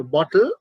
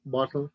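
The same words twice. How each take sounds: First: BOTTLE rising, T clearly released; crisp British T. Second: BOTTLE low and soft, T flattened; flat T. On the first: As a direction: say "bottle" with weight on the T. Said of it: "they are not highlighting the T". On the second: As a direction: say "bottle" with no weight on the T. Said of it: "So the flat sound". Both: Shown as a demonstration.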